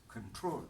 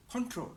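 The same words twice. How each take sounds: First: "control" as cuhn-TROL, weak first vowel; verb stress. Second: "control" as CON-trol, full first vowel; noun stress. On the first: Teacher giving the verb form, second-syllable stress. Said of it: "As a verb". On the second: Teacher giving the noun form, first-syllable stress. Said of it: "As a noun". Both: Shown as a demonstration.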